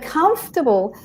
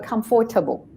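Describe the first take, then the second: First: The middle 'for' syllable is dropped. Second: The middle 'for' syllable is fully pronounced. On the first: The speaker calls it right. "The O R we don't say" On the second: The speaker calls it wrong. "because there's a four there, people go comfortable"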